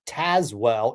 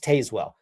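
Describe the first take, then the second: First: The name is said in the local way. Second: The name is said as it is spelled. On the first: This is how others say the name should be pronounced. "constantly reminded me that it's pronounced Tazewell" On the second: This is the Midwestern reading from the spelling. "sometimes we even pronounce them the way they're spelled"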